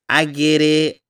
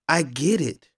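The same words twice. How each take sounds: First: It is said in a put-on girlish voice. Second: It is said in the speaker's ordinary voice.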